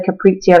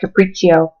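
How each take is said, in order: First: It is pronounced the local chef's way. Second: It is pronounced the standard way. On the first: The speaker calls it wrong. "that's probably how the chef pronounces it, but it's not really capriccio" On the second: The speaker calls it right. "It's capriccio"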